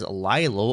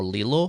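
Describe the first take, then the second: First: "Lilo" said as LYE-loh; alternative pronunciation. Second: "Lilo" said as LEE-loh; alternative pronunciation. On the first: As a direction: say "Lilo" with a long i, as in lie. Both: Shown as a demonstration. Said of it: "however you happen to say it".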